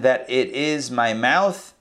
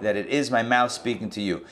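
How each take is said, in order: First: Slow, drawn-out reading with weight on "mouth"; slow emphatic reading. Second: Said in the usual way. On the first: Shown as a demonstration. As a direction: lean into "mouth" and stretch the phrase. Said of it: "or that". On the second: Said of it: "yeah, that it".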